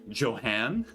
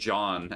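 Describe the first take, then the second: First: The name is said with two syllables. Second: The name is said with one syllable. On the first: The speaker calls it wrong. "I lose all ability to speak and pronounce new words" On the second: The speaker calls it right. "Somebody could show me the name John"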